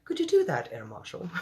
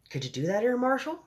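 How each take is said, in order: First: High-pitched Queen, dropping at the end; storybook Queen. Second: First try at the Queen, rising question; lightly voiced Queen. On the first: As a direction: start high as the Queen, fall away. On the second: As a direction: start normally, lift high on Air Marshal. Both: A narrator's reading. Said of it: "said the Queen".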